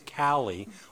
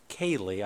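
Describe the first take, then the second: First: The first vowel sounds like 'cat'. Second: The first vowel sounds like 'kay'. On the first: The speaker calls it right. "It's Callie Olivas" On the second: The speaker calls it wrong. "don't say Kaylee. I've made that mistake"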